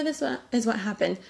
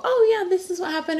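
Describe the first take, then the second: First: Softer, stumbling, unsure of the words; muddled recall. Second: Bright and sure, pitched up; confident recall. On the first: Mom with pregnancy brain fumbling the story, softer and unsure. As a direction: trip over it like you forgot. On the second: Mom telling people about the pregnancy, bright and sure. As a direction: tell it like you remember every detail. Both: Pretend. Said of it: "Pregnancy brain is a real thing".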